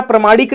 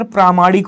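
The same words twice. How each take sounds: First: प्रमाणिक with short first vowel, pra-; wrong form. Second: प्रामाणिक with long first vowel, praa-; correct form. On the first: Teacher showing students the wrong word, short-vowel mispronunciation. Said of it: "प्रमाणिक नहीं होता". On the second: Teacher correcting students' word, long-vowel pronunciation. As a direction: lengthen the "praa" opening of प्रामाणिक. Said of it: "sir, प्रामाणिक होता है". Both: Shown as a demonstration.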